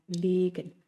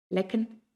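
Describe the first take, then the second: First: Long, held E in "Legen"; long vowel. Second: Short E in "lecken"; short vowel. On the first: Teacher showing learners the long vowel in "Legen". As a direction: stretch the first vowel of "Legen". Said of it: "una vocal larga". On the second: Teacher showing learners the short vowel in "lecken". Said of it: "una vocal corta". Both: Shown as a demonstration.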